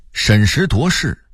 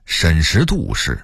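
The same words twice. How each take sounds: First: Said in the usual way. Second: 审时度势 with 度 as dù; Beijing reading. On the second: Shown as a demonstration. Narrator contrasting word lists, Beijing reading. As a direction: say 度 in 审时度势 as dù, not duó. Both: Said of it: "北京话念审时度势".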